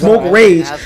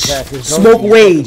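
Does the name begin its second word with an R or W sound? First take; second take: R; W. First: The second word starts with an R sound. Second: The second word starts with a W sound. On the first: "Your name is Smoke Rage" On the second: "you pronounce that shit with a W"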